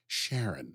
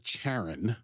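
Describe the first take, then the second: First: The word begins with a soft sound. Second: The word begins with a hard K sound. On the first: "I've always pronounced that Charon" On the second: "It's a hard C"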